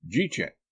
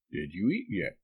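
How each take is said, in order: First: JEET YET run together as two syllables; squashed dialect "Jeet yet?"; dialect slur. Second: Said in the usual way. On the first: Acted. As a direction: slur "did you eat yet" into "Jeet yet?". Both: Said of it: "the dialect".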